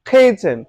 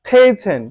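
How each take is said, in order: No difference in how they are said.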